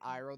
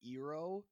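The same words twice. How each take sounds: First: The name is said in the usual way. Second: The name is said in an altered way. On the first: This is how the show says it. The speaker calls it right. "They don't say Iroh" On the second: This is how the film says it. The speaker calls it wrong. "they say Iroh"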